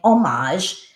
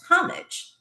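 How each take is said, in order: First: It uses the pronunciation common today. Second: It uses the pronunciation common years ago. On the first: This is how people say it now. "I hear people saying" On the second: This is how people said it in the past. "years ago I always heard it as homage"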